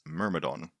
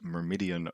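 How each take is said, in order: First: It ends in a plain '-don' syllable. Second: It has an extra 'ee' sound before '-on'. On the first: The speaker calls it right. "It's Myrmidon" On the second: The speaker calls it wrong. "I'm saying it wrong"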